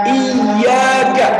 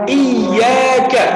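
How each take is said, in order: The two takes are said the same way.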